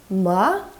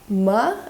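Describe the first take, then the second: First: The pitch rises from mid to high. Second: The pitch rises from mid to high.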